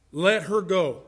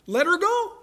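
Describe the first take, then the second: First: Firm, falling "Let her go"; measured statement, no question in it; judge's ruling. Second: High rising question on "Let her go"; high-pitched, astonished echo of the ruling; incredulous onlooker. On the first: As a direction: hand down the verdict with finality. The judge's ruling after onlookers' disbelief. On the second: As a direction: question it in sheer disbelief. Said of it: "everybody else is sitting around going". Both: Acted.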